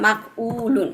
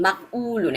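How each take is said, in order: The two takes are said the same way.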